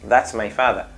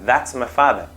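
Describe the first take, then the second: No difference in how they are said.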